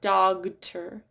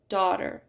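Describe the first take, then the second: First: A G sound is pronounced before the T. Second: No G sound is pronounced before the T. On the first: The speaker calls it wrong. "It's not dogter" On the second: The speaker calls it right. "Notice how that G H is not pronounced"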